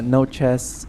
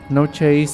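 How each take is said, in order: First: The name rhymes with 'mess'. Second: The name rhymes with 'face'. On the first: The speaker calls it right. "I think it's pronounced chess" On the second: The speaker calls it wrong. "not chase"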